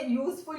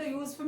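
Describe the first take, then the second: First: Said in the usual way. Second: Split into syllables. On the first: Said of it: "ये दो syllable use". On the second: Shown as a demonstration. Teacher showing two syllables, "useful" said in two parts. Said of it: "ये दो syllable use हो रहे".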